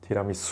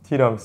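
First: The accent is on the final syllable. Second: The accent is not on the final syllable. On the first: This is the local way that people understand. The speaker calls it right. "「う」にアクセントを置かないといけない" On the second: This is the Japanese way, not understood locally. The speaker calls it wrong. "ティラミスじゃなくて"

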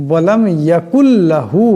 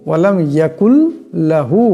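No difference in how they are said.

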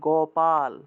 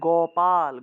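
No difference in how they are said.

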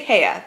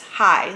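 First: The name does not sound like 'hi'. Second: The name sounds just like 'hi'. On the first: The speaker calls it wrong. "I always say Heye" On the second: The speaker calls it right. "but I think it's Hi, like hi"

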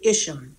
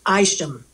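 First: The name is said in the English way. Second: The name is said in the American way.

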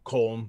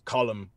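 First: The name is said in an Americanized way. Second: The name is said in the native way. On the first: The speaker calls it wrong. "it's not Colm" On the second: The speaker calls it right. "it's Colm O'Driscoll"

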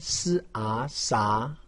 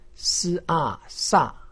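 First: The pitch rises from middle to high. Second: The pitch falls sharply from high to low. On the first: "二声" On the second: "四声"

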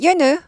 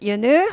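First: The pitch stays flat on the name. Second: The pitch rises at the end of the name. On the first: The speaker calls it wrong. "윤우 하지 않고" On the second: The speaker calls it right. "이렇게 올려서 부르는 게 친절하게 부르는 겁니다"

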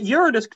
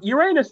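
First: The word begins with a sound like 'urine'. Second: The word ends with a sound like 'anus'. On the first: "Uranus just contains the word urine" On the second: "Uranus has the word anus in it"

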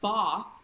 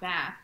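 First: The word is said with a British accent. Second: The word is said with an American accent. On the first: This is how the locals say it. The speaker calls it right. "they say Bath" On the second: This is how the locals do not say it. The speaker calls it wrong. "not Bath"

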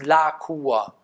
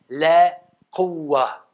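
First: The vowel sounds like an open 'a' sound. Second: The vowel sounds like a fronted 'ä' sound. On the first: "So spricht man es im Deutschen aus" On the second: "eigentlich wird das A ... eher wie ein Ä"

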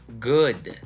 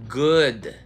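Both takes have the same delivery.

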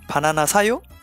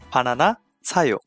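First: The voice rises at the end. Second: The voice falls at the end.

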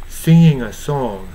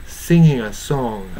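The two takes are said the same way.

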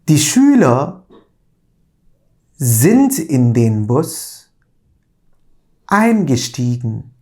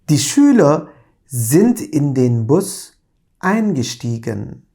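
First: The sentence is read at a slow pace. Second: The sentence is read at a normal pace.

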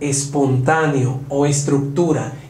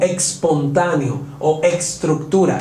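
First: The words are said with a plain s sound. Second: The words are said with a ks sound. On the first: The speaker calls it right. "debe sonar espontáneo o estructura" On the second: The speaker calls it wrong. "y no espontáneo o estructura"

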